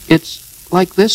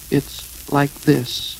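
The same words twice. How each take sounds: First: High, loud, quick interjection. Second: Slow, high, stalling voice; floundering explanation. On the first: Piglet jumps in to explain for Pooh, quick. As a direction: jump in quickly, pitched up. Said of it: "said Piglet quickly". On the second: Pooh stalls before confessing to Eeyore, slow and hesitant. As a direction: drag it out while hunting for words. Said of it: "he wasn't explaining very well". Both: A narrator's reading.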